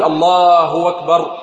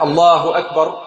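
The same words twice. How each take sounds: First: الله أكبر with the damma of الله stretched into allaahu wakbar; waw inserted. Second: Said in the usual way. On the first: Shown as a demonstration. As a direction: overstretch the damma on الهاء so a waw appears. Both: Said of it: "كثير من الناس ينطق هكذا".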